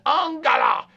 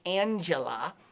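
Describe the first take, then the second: First: The name is pronounced the German way. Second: The name is pronounced the American English way. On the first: The speaker calls it right. "but it's Angela" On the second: The speaker calls it wrong. "that would be the American pronunciation"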